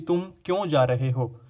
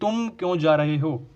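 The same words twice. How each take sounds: First: The word क्यों carries the stress. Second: The word तुम carries the stress. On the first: The speaker wants to know the reason for going. "इसका एक अर्थ है जाने का कारण जानना" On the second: This person was not asked to go. "दूसरा अर्थ है जिन्हें नहीं जाना चाहिए"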